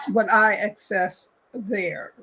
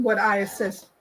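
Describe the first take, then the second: First: "access" corrected with a clear /ks/, slower; "access" said carefully, fixing the slip; corrected word. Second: "assess" said as /æsɛs/, slip before correcting; misspoken word. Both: Shown as a demonstration.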